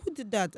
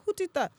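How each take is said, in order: First: Lightly voiced man asking; mild mock questioning; quick imitated query in near-usual voice; retold question. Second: High-pitched imitated question; retold surprise, pitched way up; mock astonishment. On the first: Man's first question in retelling. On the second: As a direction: squeak out the man's startled question. Man asks again, after accent switch.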